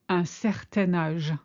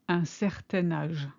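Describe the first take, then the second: Both takes have the same delivery.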